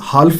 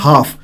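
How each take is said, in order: First: The L sound is pronounced in the word. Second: The L sound is left out of the word. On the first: The speaker calls it wrong. "ਇਸਨੂੰ ਤੁਸੀਂ ਹਾਲਫ ਨਹੀਂ ... ਬੋਲਣਾ" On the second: The speaker calls it right. "ਇਹਨੂੰ ਬੋਲਿਆ ਜਾਂਦਾ ਹੈ ਹਾਫ"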